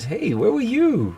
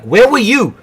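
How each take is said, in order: First: It is said in a warm, friendly tone. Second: It is said in a harsh, strict tone.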